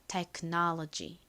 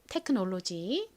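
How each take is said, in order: First: It is said with American vowels and stress. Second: It is said with Korean-style syllables. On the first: "미국식 발음은 이 O가 가장 앞에 O는 아 소리, 두 번째는 어에 가깝게" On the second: "한국식 발음은"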